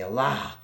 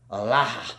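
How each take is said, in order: First: "Allah," with weight on the last syllable, rising; emphasis on the end. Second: "Allah," louder, the final syllable punched and falling; stronger end emphasis. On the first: Showing how certain people stress the end of Allah. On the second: Repeating the word with a heavier stress on its end. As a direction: hit the end of "Allah," hard. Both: Shown as a demonstration. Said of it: "with that extra emphasis on the end".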